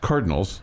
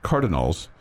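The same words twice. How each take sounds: First: The word has its ordinary, standard pronunciation. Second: The word has an unusual, idiosyncratic pronunciation. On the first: This is how it is normally said. "but it's Cardinals" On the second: Someone else says it this way. "Those of you that listen to Tech Talk know it pronounced as Cardinals"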